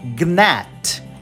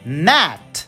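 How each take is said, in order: First: The g is pronounced before the n. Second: The g is silent; it starts with n. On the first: The speaker calls it wrong. "a pessoa tem vontade de falar gnat, mas não" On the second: The speaker calls it right. "que se fala gnat"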